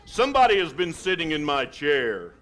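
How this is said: It is said in a great big voice.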